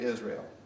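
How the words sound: The name is said with an English pronunciation. "we say Israel"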